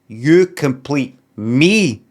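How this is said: The stress falls on the final word me. It is the speaker, not someone else, who is completed. "He puts emphasis on me"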